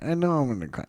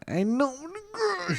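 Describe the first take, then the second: First: Said in the usual way. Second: High, whiny mock-crying squeak; mock whimper. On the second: Dreading the final movie, a mock whimper. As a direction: pitch it up like about to bawl, half joking.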